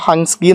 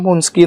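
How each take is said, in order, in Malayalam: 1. ആദ്യ സ്വരാക്ഷരം 'hun' എന്നതിലെ 'a' പോലെ ഉച്ചരിക്കുന്നു. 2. ആദ്യ സ്വരാക്ഷരം 'put' എന്നതിലെ 'u' പോലെ ഉച്ചരിക്കുന്നു. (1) "ഹൻസ്കി എന്നാകാം" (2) "ഹുൻസ്കി എന്നാണ് ഞാനതിനെ പ്രൊനൗൺസ് ചെയ്യുന്നത്"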